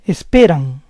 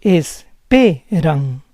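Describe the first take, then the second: First: Said in the usual way. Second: Esperan slowly split as es-PE-ran; syllable by syllable. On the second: Shown as a demonstration. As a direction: say Esperan slowly in parts, stressing PE. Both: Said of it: "stress goes on the second to last".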